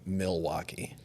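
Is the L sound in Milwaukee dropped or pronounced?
pronounced. It is said with the L pronounced.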